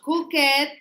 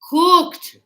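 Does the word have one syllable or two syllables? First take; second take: two syllables; one syllable. First: The ending is an extra id syllable, two syllables. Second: The ending is a short t sound, one syllable. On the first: The speaker calls it wrong. "not cook it. Yeah, I don't want to hear that" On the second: The speaker calls it right. "It says t after the sounds P, K"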